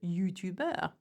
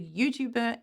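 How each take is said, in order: First: It is said with a French accent. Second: It is said with an English accent.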